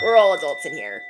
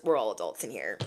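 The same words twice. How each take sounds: First: Louder, firm "We're all adults in here"; emphatic. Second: Lower, quiet "we're all adults"; quiet aside. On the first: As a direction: declare it firmly. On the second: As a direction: mutter it softly. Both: Shown as a demonstration.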